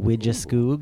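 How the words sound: The name is said with an American pronunciation. "the Americanized pronunciation"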